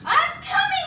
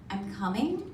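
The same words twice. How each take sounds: First: It is screamed loudly. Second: It is said quietly and nervously.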